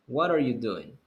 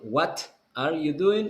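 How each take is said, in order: First: The T in 'what' is a quick flap. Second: The T in 'what' is a hard T. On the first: The speaker calls it right. "you pronounce the T like the R in Spanish" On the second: The speaker calls it wrong. "You won't say"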